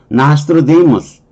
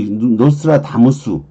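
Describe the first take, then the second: First: It is said with English-style vowels and stress. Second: It is said with Korean-style vowels and rhythm. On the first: The speaker calls it right. "영어로 발음은 그게 아니니까" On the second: The speaker calls it wrong. "노스트라다무스에 너무 잘 알고 있기 때문에"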